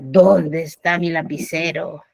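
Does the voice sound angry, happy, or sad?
angry. The voice sounds furious and angry. "Con furia"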